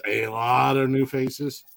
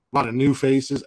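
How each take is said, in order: First: "a lot of new faces" stretched out slowly; drawn-out emphasis. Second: Said in the usual way. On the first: Real, not acted. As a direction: say "a lot of new faces" again, dragging it out for weight.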